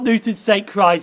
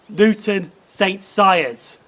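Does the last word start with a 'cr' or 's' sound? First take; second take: cr sound; s sound. First: The last word starts with a 'cr' sound. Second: The last word starts with an 's' sound. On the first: The speaker calls it wrong. "I just pronounced that station wrong. It's not" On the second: The speaker calls it right.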